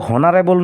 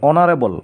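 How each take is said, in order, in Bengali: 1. শব্দটি একটি স্পষ্ট 'h' ধ্বনি দিয়ে শুরু হয়। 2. শব্দটি সরাসরি একটি স্বরধ্বনি দিয়ে শুরু হয়। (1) "আমিতো কেতিয়াও হনাৰেবল নকওঁ" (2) "এইচৰ উচ্চাৰণটো অ আহিছে প্ৰথমে"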